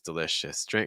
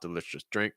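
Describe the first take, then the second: First: The third syllable's vowel is drawn out. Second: The third syllable's vowel is clipped short. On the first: The speaker calls it right. "It should be delicious" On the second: The speaker calls it wrong. "the third syllable is too short on the vowel"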